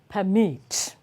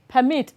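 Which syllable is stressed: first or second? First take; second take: second; first. First: The stress is on the second syllable. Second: The stress is on the first syllable. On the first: It names an action. "the verb is stressed on the second syllable" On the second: It names a thing. "the noun is always stressed on the first syllable"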